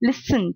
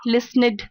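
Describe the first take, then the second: First: The ending is a short 'd' sound. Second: The ending is an extra 'id' syllable. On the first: The speaker calls it right. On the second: The speaker calls it wrong.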